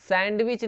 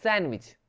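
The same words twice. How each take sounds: First: सैंडविच with the d sounded, sand-wich; wrong pronunciation. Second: सैंडविच as san-wich, d silent; correct pronunciation. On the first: Teacher showing the mistake to avoid, सैंडविच with audible d. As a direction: voice a clear d in सैंडविच. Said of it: "सैंडविच नहीं". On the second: Teacher correcting students, सैंडविच said without the d. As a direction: drop the d in सैंडविच. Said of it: "क्या बोलेंगे इसको". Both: Shown as a demonstration.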